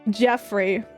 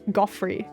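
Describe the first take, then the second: First: The name begins with a soft J sound. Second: The name begins with a hard G sound.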